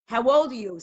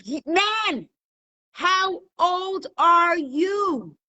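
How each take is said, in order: First: Said in the usual way. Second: High, very slow exasperated shout; hammed-up angry judge losing patience. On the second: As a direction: stretch every word in loud exasperation. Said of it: "The judge is starting to get angry".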